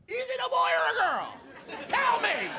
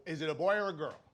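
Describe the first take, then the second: First: High, loud, gushing demand; nosy excited stranger. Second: Said in the usual way. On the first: Retold or imitated. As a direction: beg to know like a giddy busybody. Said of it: "You know?". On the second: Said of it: "everybody who would see it was like".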